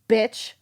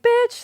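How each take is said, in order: First: It is said in a harsh, hostile tone. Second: It is said in a warm, affectionate tone. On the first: The speaker hates the person. "that's because I hate you" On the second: The speaker loves the person. "that's because I love you"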